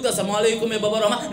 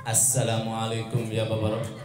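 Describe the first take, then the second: First: "Assalamualaikum ya babar rahmah" rattled off fast; rushed greeting. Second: "Assalamualaikum ya babar rahmah" said slow, lower and softer; trembling and slow. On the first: Retold or imitated. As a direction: hurry through the words. Groom retells his greeting quickly. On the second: Acted. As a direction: creep through the greeting in fear. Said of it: "Dengan penuh gemetar dan pelan-pelan".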